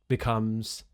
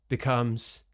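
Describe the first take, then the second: No difference in how they are said.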